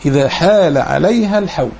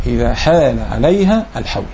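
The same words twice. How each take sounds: The two takes are said the same way.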